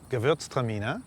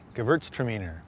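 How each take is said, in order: First: It is said with German pronunciation. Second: It is said with English pronunciation. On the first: "the German pronunciation is" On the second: "the English would say"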